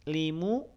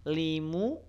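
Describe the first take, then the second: Both takes have the same delivery.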